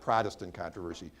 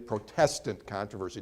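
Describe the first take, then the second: First: The stress is on the first syllable. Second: The stress is on the second syllable. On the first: It names the Protestant church. The speaker calls it wrong. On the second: The name comes from people protesting. The speaker calls it right. "you can see where the name Pro- Protestant"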